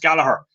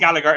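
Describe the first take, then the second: First: The middle G sound is left silent. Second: The middle G sound is clearly pronounced. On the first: The speaker calls it right. "it's Gallagher" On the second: The speaker calls it wrong. "isn't Gallagher"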